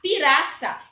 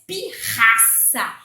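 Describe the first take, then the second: First: The middle R is a weak tapped sound. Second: The middle R is a strong throaty sound. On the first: The speaker calls it wrong. "duas vogais vão enfraquecer aquele R" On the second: The speaker calls it right. "som do R forte, sai lá da garganta"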